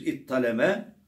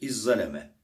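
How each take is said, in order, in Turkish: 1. Ortada çift t sesi var. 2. Ortada çift z sesi var. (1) "za'yı ta'ya çeviriyoruz. Tı'yı ta'ya idgam ediyoruz" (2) "Ta'yı za'ya kalbediyoruz. Zı'yı za'ya idgam ediyoruz"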